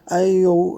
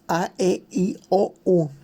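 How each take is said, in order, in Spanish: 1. Las vocales se dicen con poca soltura y con poco movimiento de la boca. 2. Las vocales se dicen con un movimiento de boca amplio y claro. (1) "No nada más es decir" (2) "marcar bien las letras, pronunciar bien la palabra"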